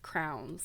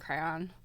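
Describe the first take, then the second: First: The word sounds like 'crown'. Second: The word does not sound like 'crown'. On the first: This is how a friend from Minnesota says it. The speaker calls it wrong. "like crowns, like you'd wear in your head" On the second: This is how the speaker grew up saying it. The speaker calls it right. "I grew up saying crayon"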